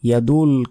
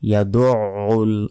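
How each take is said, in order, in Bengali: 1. d সোজা u-তে গিয়ে মেশে, গলার কোনো ধ্বনি নেই। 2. u-র আগে একটি টান-টান গলার ধ্বনি আসে। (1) "আমরা অনেকে বলি ইয়াদুল ইয়াদুল কিন্তু এখানে নেই" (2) "আইনের উচ্চারণ গলার ভেতর থেকে উচ্চারিত হবে"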